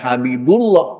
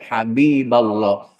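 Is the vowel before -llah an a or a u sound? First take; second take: u; a. First: The vowel before -llah is a u sound. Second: The vowel before -llah is an a sound. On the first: The speaker calls it wrong. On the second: The speaker calls it right.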